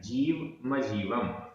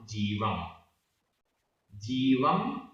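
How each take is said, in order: First: The m starts a syllable with a vowel after it. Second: The first m closes a word with no vowel. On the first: The speaker calls it right. "इकट्ठा बोलते हैं तो जीव मजीवम ऐसा उच्चारण आ जाता है" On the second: The speaker calls it wrong. "ऐसा उच्चारण करते हैं, वो गलत उच्चारण है"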